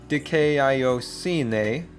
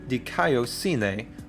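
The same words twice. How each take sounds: First: The A and I are said as separate vowels. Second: The A and I blend into one sound. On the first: The speaker calls it wrong. "you might be tempted to say dikaiosine" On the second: The speaker calls it right. "two vowels come together to make one sound"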